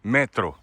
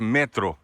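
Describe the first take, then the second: The two takes are said the same way.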